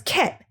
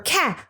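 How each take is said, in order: First: The vowel is changed to an 'e' sound. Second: The vowel is the usual open 'a' sound. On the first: The speaker calls it wrong. "the sounds are distorted or, or changed into another sound" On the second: The speaker calls it right. "Instead of it being cat"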